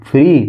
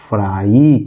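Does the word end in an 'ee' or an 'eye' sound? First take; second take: ee; eye. First: The word ends in an 'ee' sound. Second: The word ends in an 'eye' sound. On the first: The speaker calls it wrong. "फ्री नहीं" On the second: The speaker calls it right. "ये लिखा हुआ है फ्राई"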